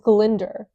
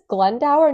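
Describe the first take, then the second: First: The name ends with a short 'dor' sound. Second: The name ends with a 'dower' sound. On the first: The speaker calls it right. "No, it's Glyndor" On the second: The speaker calls it wrong. "which you would think is Glendower"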